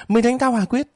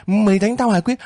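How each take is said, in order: First: Even higher shriek rising on "Quyết"; landlady shrieking again, higher still. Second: Landlady screaming at Quyết, high; shrieking. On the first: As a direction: scream "mày đánh tao hả Quyết?" higher with a rising end. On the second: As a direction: shriek "Mày đánh tao hả Quyết" as if being beaten. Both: Acted. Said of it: "mụ đã la bay bải".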